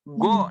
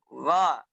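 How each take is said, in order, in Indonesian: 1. Bunyi gha dibuat dengan bibir membulat dan dimonyongkan. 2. Bunyi gha dibuat dengan lembut tanpa membulatkan bibir. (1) "Terkadang kita membaca ghain itu go, ya. Go. Nah, itu salah" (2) "yang benar adalah di ujung tenggorokan dilembutkan"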